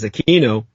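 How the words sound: The name is said the American way. "pronounce his name with the K sound, Americanized as Aquino"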